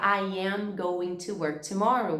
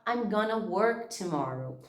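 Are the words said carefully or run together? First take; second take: carefully; run together. First: Each word is said fully and separately. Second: The words are contracted and run together.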